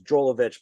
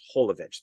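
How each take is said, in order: First: The name begins with a J sound. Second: The name begins with an H sound. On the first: This is how Americans say it. The speaker calls it wrong. "So I guess in America it's Jolovich" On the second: This is how Europeans say it. The speaker calls it right. "but in over like in Europe and stuff, it's Holovich"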